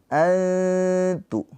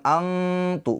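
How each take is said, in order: First: High, drawn-out "antu", no hard n or ng; ikhfa, hidden n. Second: High, drawn-out "angtu"; wrong ng sound. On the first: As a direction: chant "antu" with the tongue just short of t. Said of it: "diberikan celah sedikit". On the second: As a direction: chant "angtu" with a back-of-throat ng. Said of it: "Bukan angtu". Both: Shown as a demonstration.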